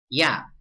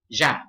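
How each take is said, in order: First: The first consonant sounds like English y. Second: The first consonant sounds like English sh. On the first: "This would be" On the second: "In Argentina, it would be"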